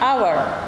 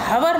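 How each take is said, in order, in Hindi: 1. यह शब्द स्वर से शुरू होता है, h साइलेंट है। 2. यह शब्द बोले जाने वाले h से शुरू होता है। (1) "इनको बोलते हैं आवर" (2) "एच न हवर ना बोलकर"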